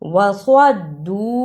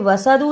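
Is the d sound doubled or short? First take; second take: doubled; short. First: The d sound is held and doubled. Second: The d sound is short and single. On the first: The speaker calls it right. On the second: The speaker calls it wrong.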